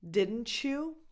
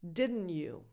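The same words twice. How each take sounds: First: The T and Y blend into a ch sound. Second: The T is skipped, with no ch sound. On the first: "you get a ch sound in the middle" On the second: "Where you kind of skip the T"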